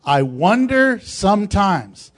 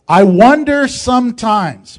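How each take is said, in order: First: Said in the usual way. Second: Loud, drawn-out emphasis on wonder; emphatic, slow. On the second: Shown as a demonstration. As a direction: wonder leaned on hard, louder and slowed. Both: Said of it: "What did I say?".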